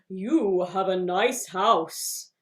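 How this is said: It is said at a low pitch.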